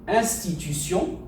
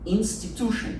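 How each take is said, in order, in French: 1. Le mot est prononcé à la française. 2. Le mot est prononcé à l'anglaise. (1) "en français" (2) "en anglais"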